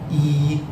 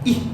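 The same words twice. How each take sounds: First: The vowel is held long. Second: The vowel is cut short. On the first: The speaker calls it right. "E A actually forms a long vowel" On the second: The speaker calls it wrong. "the short I vowel"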